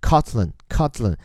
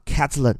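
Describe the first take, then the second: First: The first vowel is not the 'a' of 'cat'. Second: The first vowel is the 'a' of 'cat'. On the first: "也有一部分把它发成Cotland 也是可以的" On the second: "注意第一个音节叫做Ca 这个发的是A 这个音"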